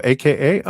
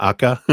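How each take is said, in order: First: A K A said as three separate letters; spelled as letters. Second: Akka said as a single word, "AH-kah"; read as one word. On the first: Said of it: "Just A K A as letters". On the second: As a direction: run it together as the name Akka. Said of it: "Not Akka". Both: Shown as a demonstration.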